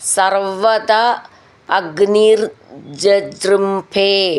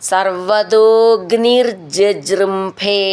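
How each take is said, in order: First: The first two words are said as separate words. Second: The first two words merge into one sound.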